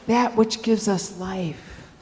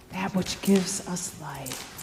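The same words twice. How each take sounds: First: Said in the usual way. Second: Lower, much softer repeat; quiet, grave echo; hushed echo. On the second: Acted. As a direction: let it sink in, low and soft.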